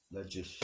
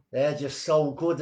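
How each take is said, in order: First: Said in the usual way. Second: So stretched out, higher and louder; gushing emphasis. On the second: Real, not acted. Host raving to listeners about two poems, so stretched and loud. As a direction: lean hard on so with delight.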